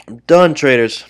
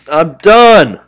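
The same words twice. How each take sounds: First: Said in the usual way. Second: Loud, higher, final "done" slammed down; fed-up outburst. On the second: Real, not acted. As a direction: snap it out, throwing in the towel. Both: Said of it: "Very frustrated with that".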